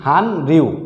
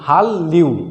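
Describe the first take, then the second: First: The first syllable ends in an n sound. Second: The first syllable ends in an l sound. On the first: The speaker calls it wrong. "নিয়ম না জানতাম পড়তাম হান রিউ" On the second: The speaker calls it right. "সঠিক উচ্চারণ হবে হাল্লিউ"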